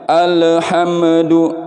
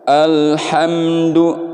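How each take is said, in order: First: The l and m sounds bounce with an echo. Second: The consonants are held cleanly with no bounce. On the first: The speaker calls it wrong. "ada pantulan le me, itu nggak boleh" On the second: The speaker calls it right. "bersih, nggak ada pantulan-pantulan"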